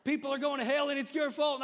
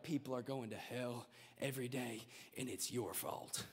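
First: Much higher, louder mock yell of doom; loud evangelist. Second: Much lower, softer doom-laden preacher; imitating evangelist. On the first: Evangelist yelling blame at a nine-year-old, hammed-up. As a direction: bellow the blame at the crowd. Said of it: "he'd be like". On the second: Mocking the heavy evangelist blaming the crowd, low and grim. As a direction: mimic a grim old evangelist. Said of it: "The evangelist would come in, he'd be like".

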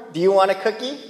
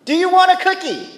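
First: Said in the usual way. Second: Much higher, louder sarcastic taunt; sarcastic jab. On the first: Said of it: "Have you heard that phrase before?". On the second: Shown as a demonstration. Preacher voicing a sarcastic taunt to the congregation, high and loud. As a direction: throw the line out mockingly.

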